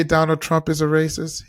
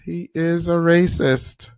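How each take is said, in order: First: Said in the usual way. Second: Slow, deliberate stress on every word of "he is a racist"; emphatic insistence. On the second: Real, not acted. Host insisting on the claim, slow emphatic "he is a racist". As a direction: draw out "he is a racist", higher and firm.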